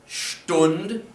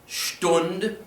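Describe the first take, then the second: Both takes have the same delivery.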